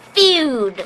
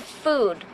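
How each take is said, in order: First: The vowel is a gliding yoo sound. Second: The vowel is a plain oo sound. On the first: "Has to be... Feud" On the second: "They don't say food"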